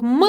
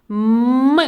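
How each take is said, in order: First: Said in the usual way. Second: "М" held in a long hum; sustained "М" sound for children to copy; drawn-out consonant. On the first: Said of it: "Вимовте ці звуки разом зі мною". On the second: Shown as a demonstration. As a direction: stretch "М" out on closed lips, then release. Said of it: "голосно і протяжно вимовити ці звуки".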